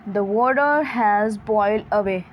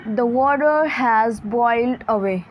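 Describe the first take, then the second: The two takes are said the same way.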